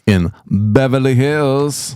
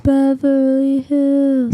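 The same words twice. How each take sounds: First: High, slow and dreamy; dreamy drawl. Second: Slow, louder dreamy drawl; dreamy echo. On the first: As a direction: swoon over the name. Dreamy drawn-out place name. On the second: Echoes it, drawn out. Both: Pretend.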